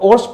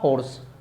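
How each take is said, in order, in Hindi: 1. शब्द सीधे स्वर से शुरू होता है। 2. शब्द की शुरुआत 'h' की ध्वनि से होती है।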